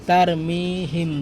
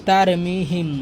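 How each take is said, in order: Both takes have the same delivery.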